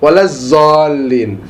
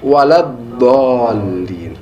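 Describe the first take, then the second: First: The heavy consonant sounds like a z. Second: The heavy consonant sounds like a d. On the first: The speaker calls it wrong. "ما يقدر يقول ضاد يقول ظا" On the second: The speaker calls it right. "mengeluarkan dhad daripada dha"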